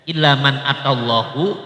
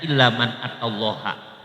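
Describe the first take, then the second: First: The word Allah ends with a short u vowel. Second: The word Allah ends with a short a vowel. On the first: "Jadi Allahnya ada yang dibaca doma" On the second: "ada yang dibaca fathah"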